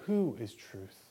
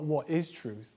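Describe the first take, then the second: First: "Who" lifted and leaned on, slow and deliberate; stress on Who. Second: Said in the usual way. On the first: Shown as a demonstration. Preacher correcting Pilate's question, stress on "Who". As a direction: hit "Who" hard, lower the rest. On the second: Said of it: "the question that he should have asked is not".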